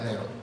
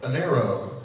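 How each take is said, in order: First: It is said with a Spanish accent. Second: It is said with an American accent. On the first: The speaker calls it right. "It's pronounced Enero" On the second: The speaker calls it wrong. "with an American accent"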